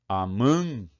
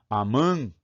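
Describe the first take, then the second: No difference in how they are said.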